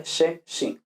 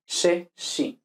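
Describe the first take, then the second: First: "She, she" again with sh; sh sound. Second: "she, she" with sh like English show; sh sound. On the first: Teacher repeats sce sound again. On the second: Teacher repeats sce sound for learners. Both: Shown as a demonstration. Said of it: "como el inglés show".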